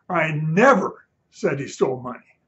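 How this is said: The word 'never' is stressed.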